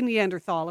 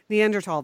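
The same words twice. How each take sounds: First: It uses the older pronunciation of the word. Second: It uses the newer pronunciation of the word. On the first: This is how people used to say it. "I'll say Neanderthal if that makes you feel better" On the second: This is how people say it nowadays. "that's the way they say it now"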